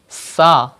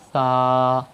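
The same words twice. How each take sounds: First: The consonant is a sharp, whistling s sound. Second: The consonant is a soft th without whistling. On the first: The speaker calls it wrong. "If you read sa, it is wrong" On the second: The speaker calls it right. "without whistle sound like sa"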